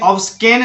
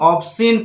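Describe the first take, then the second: First: A k sound is pronounced after the s. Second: No k sound is heard after the s. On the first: The speaker calls it wrong. "ऑब्सकेन नहीं पढ़ना है आपको" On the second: The speaker calls it right. "ऑब्सिन पढ़ना है"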